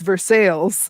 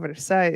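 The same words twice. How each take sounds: First: It is pronounced in the local Kentucky way. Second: It is pronounced in the French-style way. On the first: "But in Kentucky, it's Versailles" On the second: "there's a Cuban restaurant called Versailles"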